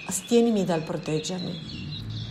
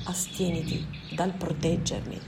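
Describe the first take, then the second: First: "astienimi" said slowly with a rising tune, as a first wrong try; slip of the tongue. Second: "Astieniti" said softer with a falling tune, as the fixed word; self-correction. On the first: Ismael slips on "astienimi" while refusing his visitor's protection. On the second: Ismael corrects himself to "Astieniti", falling and final. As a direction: settle on "Astieniti" firmly and let it fall. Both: Acted.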